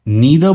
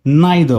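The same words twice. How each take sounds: First: नीदर with long "ee" after the n; ee pronunciation. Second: नाइदर with "eye" after the n; eye pronunciation. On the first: Teacher offering first option, नीदर with an ee sound. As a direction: say नीदर as "NEE-ther". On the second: Teacher offering second option, नाइदर with an eye sound. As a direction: say नाइदर as "NIGH-ther". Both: Shown as a demonstration. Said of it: "दोनों तरीके सही है".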